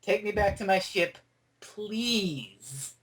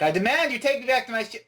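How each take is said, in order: First: Polite request. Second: High-pitched, forceful mock demand. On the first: Retold or imitated. Fan voicing her corrected request to the Doctor, grudgingly polite. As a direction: give in and ask nicely, stretching the last word. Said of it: "get it right". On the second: Fan acting the gun-holder ordering the Doctor, demanding. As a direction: imitate her demanding, pitch raised. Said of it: "Not like that".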